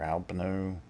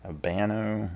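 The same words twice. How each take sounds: First: Albano stressed on the first syllable, "AL-buh-no". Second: Albano stressed on the middle syllable, "al-BAH-no" with a short flat A as in "ban"; second-syllable stress. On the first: Unsure tarot reader offers the other way to say the name, Albano stressed on AL. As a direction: say Albano as "AL-buh-noh", middle vowel reduced. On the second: Unsure tarot reader offers one way to say the name, Albano stressed on BAN. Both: Shown as a demonstration. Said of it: "not sure how he would have pronounced".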